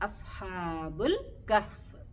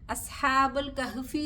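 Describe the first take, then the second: First: The last word stops on the final consonant. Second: The last word ends with a short 'i' vowel. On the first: The speaker calls it right. "കഹ്ഫ് അസ്ഹാബുൽ കഹ്ഫ്" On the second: The speaker calls it wrong. "അസ്ഹാബുൽ കഹ്ഫി എന്ന് പറയരുത്"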